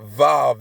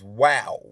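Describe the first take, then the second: First: The word begins with a V sound. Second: The word begins with a W sound. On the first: This is the modern pronunciation. The speaker calls it wrong. "Vav is the modern day uh, pronunciation" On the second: This is the ancient pronunciation. The speaker calls it right. "it was the W sound"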